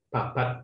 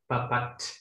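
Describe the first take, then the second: First: The final T is held back, not released. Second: The final T is released with a puff. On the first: "tidak meletup" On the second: "kalau logat ini dibawa ke Indonesia, jadi lucu"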